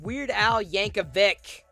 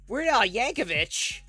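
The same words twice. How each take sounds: First: The name ends with a 'k' sound. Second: The name ends with a 'ch' sound. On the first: The speaker calls it right. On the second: The speaker calls it wrong.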